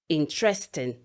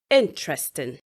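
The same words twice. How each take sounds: First: The stress is not on the first syllable. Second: The stress is on the first syllable. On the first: The speaker calls it wrong. "People would usually say" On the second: The speaker calls it right. "the stress is on the first syllable of the word"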